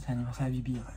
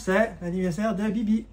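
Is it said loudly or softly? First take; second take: softly; loudly. First: It is said softly and quietly. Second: It is said at normal loudness.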